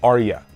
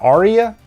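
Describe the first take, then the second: First: The name has no 'ee' sound in it. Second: The name has an 'ee' sound in it. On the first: The speaker calls it right. "the rightful way to say it is Arya. No E" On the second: The speaker calls it wrong. "I think I've been calling her Arya"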